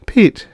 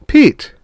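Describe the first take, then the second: First: Said in the usual way. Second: Higher, louder call of his name; wife calling her dazed husband louder. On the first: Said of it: "she said". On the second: Acted. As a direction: call him sharply to snap him out of it. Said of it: "Then louder".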